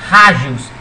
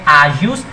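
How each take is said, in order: First: The word starts with a breathy h-like sound. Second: The word starts directly with a vowel sound.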